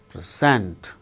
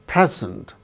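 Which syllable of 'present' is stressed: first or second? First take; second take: second; first. First: The stress is on the second syllable. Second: The stress is on the first syllable. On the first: It is used as a verb. "When it is used as verb, the second syllable gains stress, like present" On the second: It is used as a noun. "The first syllable gains stress"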